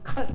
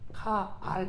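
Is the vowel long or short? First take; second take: short; long. First: The vowel is short and clipped. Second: The vowel is long and drawn out. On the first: The speaker calls it wrong. "칼 이렇게 안 하고" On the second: The speaker calls it right. "카알 이렇게 해요"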